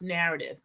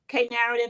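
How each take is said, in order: First: The word begins with a plain N sound. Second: The word begins with a spoken K sound. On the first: "pronounced Narrative" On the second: "K Narrative or Narrative"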